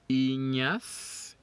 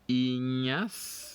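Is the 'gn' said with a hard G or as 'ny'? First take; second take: ny; ny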